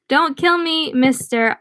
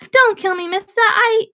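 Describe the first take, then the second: First: It is read in the reader's plain voice. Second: It is read in a put-on character voice.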